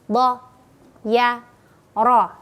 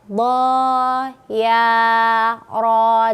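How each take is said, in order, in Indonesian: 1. Setiap suku kata dibaca pendek. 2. Setiap suku kata dibaca panjang. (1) "padahal bacanya pendek, harusnya" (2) "jadi dia panjang semua"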